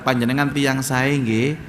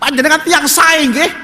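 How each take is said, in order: First: It is said in a soft, gentle voice. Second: It is said in a raised, loud voice. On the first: The speaker calls it right. "jadi ngomongnya lunak" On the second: The speaker calls it wrong. "Coba suaranya diangkat"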